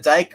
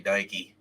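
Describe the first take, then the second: First: The name is said as one syllable. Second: The name is said as two syllables. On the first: "I'm saying it right" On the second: "We're gonna say Dikey"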